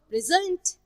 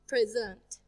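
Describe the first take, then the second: First: The stress is on the second syllable. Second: The stress is on the first syllable. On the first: It is a verb. "We usually stress the second syllable if the word is verb" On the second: It is a noun or an adjective. "we usually stress the first syllable with noun or an adjective"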